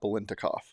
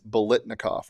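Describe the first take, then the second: First: An N sound comes before the T sound. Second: The T sound comes before the N sound. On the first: The speaker calls it wrong. "not Bolintnikov" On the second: The speaker calls it right. "It's Bolitnikov, the T comes before the N"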